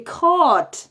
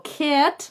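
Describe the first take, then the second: First: "caught" long, with an open back vowel; pija vowel. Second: "cat" higher, with a short frontal A; choni A. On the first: Teacher contrasting phonemes, "caught" with a long back vowel. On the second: Teacher contrasting phonemes, "cat" with the choni front A. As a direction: front open vowel in "cat". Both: Shown as a demonstration. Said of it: "no es lo mismo".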